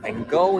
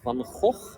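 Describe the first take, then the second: First: The name is pronounced with English sounds. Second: The name is pronounced with Dutch sounds. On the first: "or Van Gogh in English" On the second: "That's how we pronounce it in Dutch"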